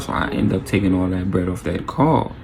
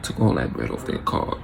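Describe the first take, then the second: First: Said in the usual way. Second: Low, soft, whispered repeat. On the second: Real, not acted. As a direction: whisper it smugly. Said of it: "repeat whispered".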